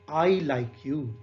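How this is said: The stress is on "I".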